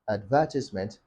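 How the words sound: It is said with a British accent. "Britons say um, advertisement"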